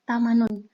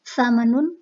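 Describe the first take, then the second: First: The first consonant is a plain 't' sound. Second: The first consonant is a 'th' sound. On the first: This is the Egyptian colloquial form. "kemudian diganti ta" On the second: This is the older standard form. "fonem tha"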